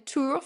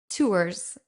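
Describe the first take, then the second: First: The final s is silent, said the French way. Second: The final s is sounded, said as spelled. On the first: The speaker calls it right. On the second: The speaker calls it wrong.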